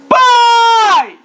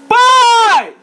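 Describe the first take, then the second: Both takes have the same delivery.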